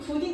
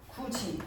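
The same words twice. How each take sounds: First: The second consonant is a plain 'd' sound. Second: The second consonant is a 'j' sound. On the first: The speaker calls it wrong. "굳이라고 얘기하지 않잖아" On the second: The speaker calls it right. "굳이 라고 이야기를 하지"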